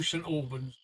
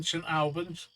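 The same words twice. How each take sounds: First: ALBANS starting like "all"; pronunciation number two. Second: ALBANS with a short "Al" as in "pal"; pronunciation number one. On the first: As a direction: say ALBANS as "AWL-bunz", low and softer. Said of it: "Number two". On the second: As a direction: say ALBANS as "AL-bunz", lifting at the end. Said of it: "Number one". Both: Shown as a demonstration.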